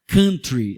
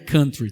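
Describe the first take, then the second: First: The word is said in a Brazilian-style pronunciation. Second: The word is said in an English-style pronunciation. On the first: This is the familiar way people say it. "vamos falar country porque o pessoal está acostumado" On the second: This is how the word really is. "na verdade é country"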